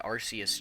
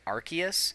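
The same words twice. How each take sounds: First: The C is said with an s sound. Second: The C is said with a k sound. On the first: "the Arceus just makes sense in my mind" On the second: "the C is more like you get the k sound from the C"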